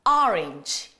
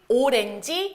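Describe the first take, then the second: First: It is said with English-style syllables and vowels. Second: It is said with Korean-style syllables and vowels. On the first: The speaker calls it right. "외국 나가선 또 발음 제대로 해줘야지" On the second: The speaker calls it wrong. "맨날 오렌지 오렌지 하셨었잖아요"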